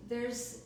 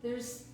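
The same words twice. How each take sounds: The two takes are said the same way.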